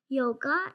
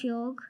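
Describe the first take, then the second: First: The word ends with a vowel sound. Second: The word ends with a consonant sound. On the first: The speaker calls it wrong. "People say" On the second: The speaker calls it right. "instead of"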